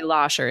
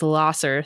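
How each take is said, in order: First: The middle consonant is a 'sh' sound. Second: The middle consonant is a plain 's' sound. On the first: The speaker calls it right. "But you say Losher" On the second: The speaker calls it wrong. "And if anyone says Losser, you're like, oh, yeah"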